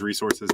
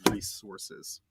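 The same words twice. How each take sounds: First: The first syllable is a plain, short 'ree'. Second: The first syllable sounds like the name Reese.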